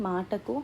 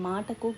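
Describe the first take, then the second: No difference in how they are said.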